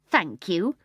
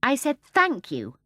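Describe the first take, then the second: First: Meaningful THANK YOU, rising at the end; pointedly. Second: Slow, higher repeat with a falling end; a little louder. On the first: Mary Poppins prompts the rude starling, pointedly. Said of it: "said Mary Poppins meaningly". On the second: Mary Poppins rebukes the starling, a little louder and slower. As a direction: repeat it slowly, pointedly, more insistently. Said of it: "a little louder". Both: A narrator's reading.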